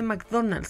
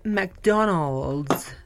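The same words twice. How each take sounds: First: McDonald's said the English way, slowly; English-style McDonald's, mocking the snobs; wrong McDonald's. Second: McDonald's said Spanish-style, makdonals, very slow; flat Spanish "makdonals"; right McDonald's. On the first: Mocking English-speakers, showing the wrong way to say it. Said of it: "No se dice McDonald's". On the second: Mocking English-speakers, giving the proper Spanish way. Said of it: "se dice McDonald's". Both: Shown as a demonstration.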